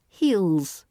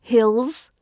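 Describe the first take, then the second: First: "heels" with a long EE, falling; long-vowel "heels" as the right take; correct long vowel. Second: "hills" with a short I, rising; short-vowel "hills" as the wrong take; mispronounced heels. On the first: Teacher correcting the word for learners, long vowel. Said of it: "Not hills". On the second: Teacher showing learners what to avoid, short vowel. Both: Shown as a demonstration.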